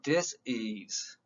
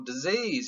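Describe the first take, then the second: First: The middle consonant is a hissing S sound. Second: The middle consonant is a buzzing Z sound. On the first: The speaker calls it right. "Go say it with the S" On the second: The speaker calls it wrong. "you're saying it wrong"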